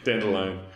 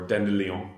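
First: It is said like the English flower name. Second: It is said with a French-style pronunciation. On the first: "like the flower" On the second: "if you're a little more of the French"

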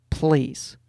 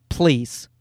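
The two takes are said the same way.

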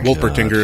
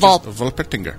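First: The name is said with an English pronunciation. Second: The name is said with a German pronunciation. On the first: "if you're... Us" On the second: "If you want to do a German pronunciation, it's"

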